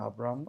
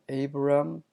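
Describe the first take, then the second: First: The name begins with an 'ah' vowel sound. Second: The name begins with an 'ay' vowel sound. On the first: This is the Hebrew way of saying it. "히브리어는 그냥 아브람" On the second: This is the English way of saying it. "영어는 에이브람"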